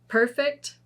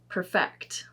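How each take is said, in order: First: The stress is on the first syllable. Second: The stress is on the second syllable. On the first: It is used as an adjective. "with the adjectives too" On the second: It is used as a verb. "with the verbs, the emphasis is not on the first"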